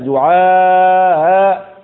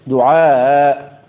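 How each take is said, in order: First: The alif before the hamza is drawn out long. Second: The alif before the hamza is kept short. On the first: "بتسهيل الهمزة مع المد في الألف" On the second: "والقصر فيها"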